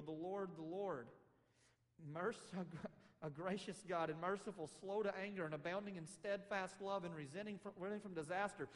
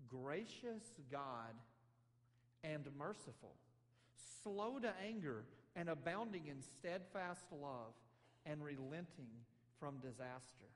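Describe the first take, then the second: First: Worship song. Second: Very slow, begrudging listing of God's virtues; grudging recital. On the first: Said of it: "like the great worship song of Israel". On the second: Jonah listing God's mercy as a complaint, slow and grudging. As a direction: spit the praises out like faults. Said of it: "the horrible things he has to complain about God". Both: Acted.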